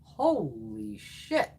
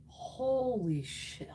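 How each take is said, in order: First: Slow, drawn-out awed gasp of words; amazed. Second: Slow, drawn-out awed exclamation; amazed. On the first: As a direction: stretch it out in disbelief. Amazed at highlighter swatch. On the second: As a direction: savor it in disbelief. Amazed again at product. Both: Real, not acted.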